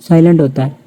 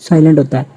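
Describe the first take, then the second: The two takes are said the same way.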